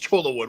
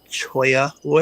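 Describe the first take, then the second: First: The double L is said like an L. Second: The double L is said like a Y. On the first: This is the local Minnesota pronunciation. "That's how we say it up here" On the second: This is the Spanish pronunciation. "you guys are pronouncing it wrong. It's Choya wood"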